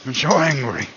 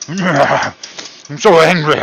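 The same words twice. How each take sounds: First: Mock anger. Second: Slow, higher, very loud mock roar of anger; hammed-up fury. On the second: Cook over a lost fry, hammed-up slow furious roar. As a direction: stretch out a huge cartoonish yell. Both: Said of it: "it makes me so angry".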